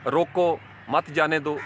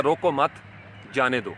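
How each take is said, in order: First: روکو set apart, then مت جانے دو, said slowly; a slow pause after روکو before مت جانے دو; slow demo of روکو مت جانے دو with the break after روکو. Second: روکو مت as one unit, break, then جانے دو falling lower; a clear pause after مت before جانے دو. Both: Shown as a demonstration. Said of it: "جیسے آپ کو میں نے بتایا تھا پنکچویشن کے".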